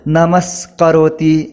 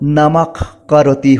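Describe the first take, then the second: First: An s sound comes before karoti. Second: A throaty friction sound comes before karoti. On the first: "वर्णों की संधि करके बोला जाए तो नमस्करोति होती है" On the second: "केवल ध्वनि की ही संधि किया जाए तो नमक करोति होती है"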